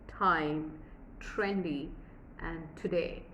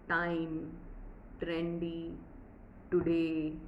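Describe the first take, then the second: First: The t is at the teeth with a puff of air. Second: The t is curled back, without a puff of air. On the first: The speaker calls it right. "it's supposed to be" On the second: The speaker calls it wrong. "which is again wrong"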